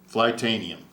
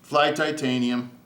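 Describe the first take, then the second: First: It is said as flight plus anium. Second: It is said as fly plus titanium. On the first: The speaker calls it right. "Flightanium is the correct way to pronounce it" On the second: The speaker calls it wrong. "I always say titanium"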